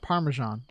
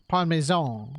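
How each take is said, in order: First: Said in the usual way. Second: PARMESAN as "pahn-may-zone", mock Italian; Italian accent. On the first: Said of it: "in an Italian accent". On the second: Shown as a demonstration. Unsure speaker trying Parmesan in an Italian accent. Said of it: "like, in an Italian accent".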